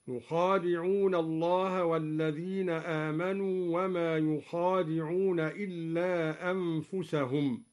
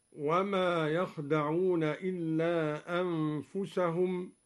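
First: يخادعون with yu, an open kha and a long alef; Duri reading. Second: يخدعون as yakhda'oon, no alef; short يخدعون without alef; standard recitation. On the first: Teacher showing students al-Duri's يخادعون. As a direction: stretch يخادعون as yukhaadi'oon. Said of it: "بضم الياء وفتح الخاء وألف بعدها ... هكذا". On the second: Teacher reciting يخدعون in the standard form. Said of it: "قرأ الدوري بضم الياء وفتح الخاء". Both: Shown as a demonstration.

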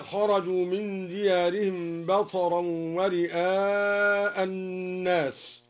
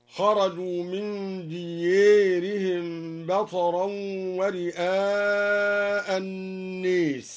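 First: Said in the usual way. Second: "ديارهم" and "الناس" with long e for a, slowly; imala. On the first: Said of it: "أمال الدوري من ديارهم". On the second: Shown as a demonstration. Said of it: "أمال الدوري". (إمالة "ديارهم" و"الناس")

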